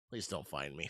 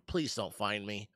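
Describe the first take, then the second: First: Hushed, pleading and much softer; whispering while hiding. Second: Said in the usual way. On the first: Pretend. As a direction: breathe it low so nobody hears. Hoping pirates miss the ship.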